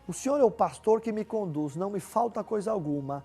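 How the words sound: It is said as a question.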